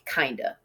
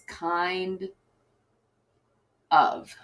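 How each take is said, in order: First: The two words blend into one word. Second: The two words are said as separate words. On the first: The speaker calls it wrong. "it blends together and it ends up sounding like kinda" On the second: The speaker calls it right. "Two separate words"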